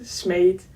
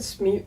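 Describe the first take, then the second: First: Smeet said smayt, like a Dutch long e; Dutch pronunciation. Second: Smeet said smeet with an English long ee; English pronunciation. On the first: Telling viewers the proper Dutch form, Dutch pronunciation. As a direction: Smeet pronounced smate. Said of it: "in Dutch you would pronounce it". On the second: Admitting to viewers how she reads it, English pronunciation. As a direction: Smeet rhymes with street. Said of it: "I also pronounce it Smeet if I'm reading". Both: Shown as a demonstration.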